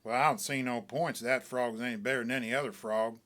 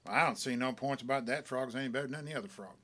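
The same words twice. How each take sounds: First: Deliberate. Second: Very deliberate. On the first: Acted. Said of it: "very deliberate". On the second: A narrator's reading. Stranger sizing up Smiley's frog, very deliberate. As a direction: measure every word like a skeptic. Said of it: "says, very deliberate".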